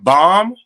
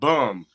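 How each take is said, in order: First: The word is said with an open 'ah' vowel. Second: The word is said with an 'uh' vowel. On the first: This is the intended word. "she say she be saying bomb" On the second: This is how the grandmother actually says it. "but she be saying bum"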